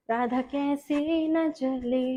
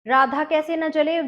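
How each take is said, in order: First: Sung, let the line float slowly; sung lyric. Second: Said in the usual way. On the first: Shown as a demonstration. Teacher singing slowly while showing the hand move. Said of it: "sings lyric slowly". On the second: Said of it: "repeats lyric as spoken count".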